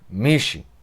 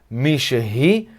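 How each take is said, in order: First: The middle sound is dropped, giving two syllables. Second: All three syllables are pronounced in full. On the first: "quando a gente fala rápido, a gente fala Mishi" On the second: "a pronúncia é Mishehi"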